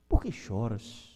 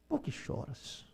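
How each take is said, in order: First: Said in the usual way. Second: Por que choras said barely audible, slow and hushed; near-silent echo. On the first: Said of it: "repeats the question softer". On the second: Shown as a demonstration. Pastor softly echoing Jesus asking the weeping woman, hushed. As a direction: let Por que choras fade almost to nothing. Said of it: "repeated as a soft echo".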